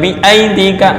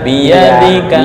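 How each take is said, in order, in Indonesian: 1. Hentian glotal memutus kata setelah 'bi'. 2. Bunyi y yang halus menyambungkan 'bi' ke bagian berikutnya. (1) "bukan bi aidika, jangan tercampur dengan hamzah" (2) "tapi biyadika"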